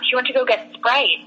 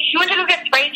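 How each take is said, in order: First: Said in the usual way. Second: Retold disbelief, pitched much higher; incredulous echo. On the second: Friend hears of Olivia's Sprite errand, incredulous. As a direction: repeat it back in high-pitched disbelief. Teller reacts to friend's long absence.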